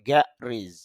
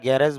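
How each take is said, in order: First: The last syllable has an 'i' vowel. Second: The last syllable has an 'e' vowel. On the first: The speaker calls it right. "তাহলে উচ্চারণটা হবে গ্যারিজ" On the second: The speaker calls it wrong. "যদি আমরা এই উচ্চারণটা গ্যারেজ বলি"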